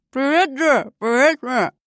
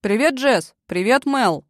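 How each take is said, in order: First: Words swallowed by a mouthful of pizza; mouth full. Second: Greeting through a mouthful of pizza; mouth full. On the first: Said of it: "Прозвучало это так". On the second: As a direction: talk around a big bite. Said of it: "с набитым ртом проговорил". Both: A narrator's reading.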